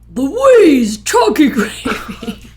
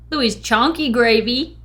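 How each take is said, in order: First: The name is said in a put-on radio announcer voice. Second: The name is said in an ordinary speaking voice. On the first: "That's All a radio right. voice, right?" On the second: "I didn't even think about doing a radio voice"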